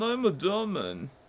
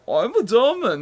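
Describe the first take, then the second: First: It is said in a vague, generic foreign accent. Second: It is said in a distinct, exaggerated German accent. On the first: The speaker calls it wrong. "Your foreign accents all sound the same" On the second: The speaker calls it right. "Much better"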